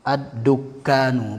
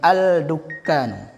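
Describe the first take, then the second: First: The l merges into a doubled d sound. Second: A clear l is heard before the d. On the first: The speaker calls it right. "Pasti ditasdidkan nanti" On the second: The speaker calls it wrong.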